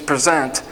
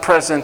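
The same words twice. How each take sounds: First: The stress is on the second syllable. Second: The stress is on the first syllable. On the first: To offer or give oneself. The speaker calls it right. "it's present" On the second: A gift. The speaker calls it wrong. "It's not present"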